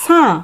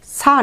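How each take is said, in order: First: সাঁ with the vowel nasalised; সাঁ, নাসিক্য আ; nasal sa. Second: সা with a plain oral a; the wrong take, সা without nasal; সা, নাসিক্য ছাড়া. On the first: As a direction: correct সাঁ, through the nose. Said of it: "উচ্চারণটা হবে সাঁ". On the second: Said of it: "সা নয়". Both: Shown as a demonstration.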